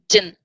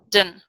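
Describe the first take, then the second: First: The d and t sounds are dropped. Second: The d and t sounds are dropped.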